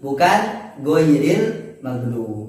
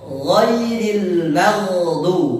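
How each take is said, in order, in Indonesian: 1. Dimulai dengan bunyi 'g' yang keras. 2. Dimulai dengan bunyi 'gh' yang lembut dari tenggorokan. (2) "bukan huruf go tapi gha"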